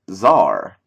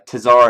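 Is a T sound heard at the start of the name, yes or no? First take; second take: no; yes. First: The name starts without any T sound. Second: The name starts with a T sound. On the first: The speaker calls it right. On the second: The speaker calls it wrong.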